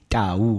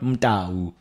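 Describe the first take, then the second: First: The name starts directly with a 't' sound. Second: The name starts with an added 'm' sound. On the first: The speaker calls it right. "It's Pesi Tau" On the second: The speaker calls it wrong. "not Mtau"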